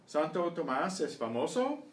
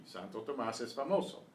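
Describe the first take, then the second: First: "¿Santo Tomás es famoso?" higher and louder, rising at the end; question tune. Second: "Santo Tomás es famoso" as a statement, falling at the end; answer tune. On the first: Teacher quizzing students, "¿Santo Tomás es famoso?" with rising question tune. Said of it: "answer the questions as I read them". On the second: Teacher giving students the answer, "Santo Tomás es famoso" with falling statement tune. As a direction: bring "famoso" down to close the answer. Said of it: "answer the questions". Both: Shown as a demonstration.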